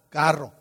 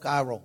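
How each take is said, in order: First: The R is a strong trill. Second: The R is soft and English-like. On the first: The speaker calls it right. "la R" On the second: The speaker calls it wrong. "no carro"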